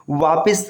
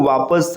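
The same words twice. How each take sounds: First: वापिस said as "vaapis"; wrong vowel. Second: वापस said as "vaapas"; correct vowel. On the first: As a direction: put an i before the s in वापिस. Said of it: "गलत होता है". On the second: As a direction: put an a before the s in वापस. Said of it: "इसको वापस स कहते हैं". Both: Shown as a demonstration.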